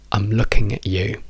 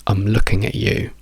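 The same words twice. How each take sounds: Both takes have the same delivery.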